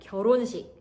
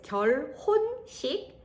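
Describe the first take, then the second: First: The syllables run together with sounds linked. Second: Each syllable is pronounced separately, letter by letter. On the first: "but you pronounce it like" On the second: "when you pronounce it word by word is"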